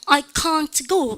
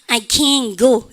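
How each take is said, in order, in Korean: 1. 영국식이에요. t 소리가 분명하게 들려요. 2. 미국식이에요. t 소리가 거의 안 들려요. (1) "영국 애들 해보세요. I can't 시작" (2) "미국 애들 시작. I can go 이렇게 합니다"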